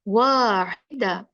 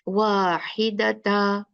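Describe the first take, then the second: First: The word ends with an open 'a' sound. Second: The word ends with a 'ta' sound. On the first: The speaker calls it right. "नहीं, वाहिदा" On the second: The speaker calls it wrong. "आपने ऐसे नहीं पढ़ना"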